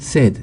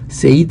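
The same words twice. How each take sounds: First: The vowel is a short 'e', like bed. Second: The vowel is a long 'ay', rhyming with paid. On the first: The speaker calls it right. "said가 됩니다" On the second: The speaker calls it wrong. "said가 아니고"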